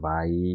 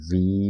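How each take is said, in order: First: The word ends with an 'eye' vowel. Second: The word ends with an 'ee' vowel. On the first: "কয়েক কয়েক জায়গায় ভাইও দেখেছিলাম" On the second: "সম্ভবত ভি উচ্চারণটাই perfect"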